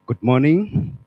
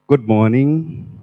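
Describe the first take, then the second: No difference in how they are said.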